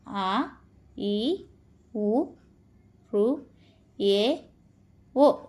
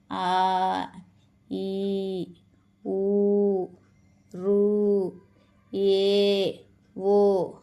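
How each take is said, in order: First: ఆ, ఈ, ఊ, రు, ఏ, ఓ each clipped to a single short beat; short vowels ఆ ఈ ఊ, one beat each. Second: ఆ, ఈ, ఊ, రు, ఏ, ఓ each held for two beats like a sung note; long vowels ఆ ఈ ఊ held out two counts; long drawn vowels. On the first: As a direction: say ఆ ఈ ఊ రు ఏ ఓ quickly, one count per vowel, no drawing out. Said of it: "ఒకేసారి పలికే వాటిని". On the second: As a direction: draw out every vowel ఆ ఈ ఊ రు ఏ ఓ, stretching each sound. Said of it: "వీటిని రాగం తీసి కూడా పలకాలి". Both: Shown as a demonstration.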